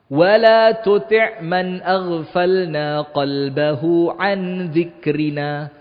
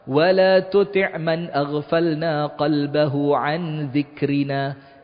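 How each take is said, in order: First: The verse is said slowly. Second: The verse is said fast.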